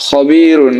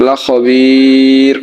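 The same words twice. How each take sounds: First: Said in the usual way. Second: খবির with a long, loud "ee", stopping on r; pausal form. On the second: Shown as a demonstration. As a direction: drop the un and stretch the ee of খবির. (ওয়াকফে খবির লম্বা টেনে) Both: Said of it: "ওয়াকফ করলে কি হবে?".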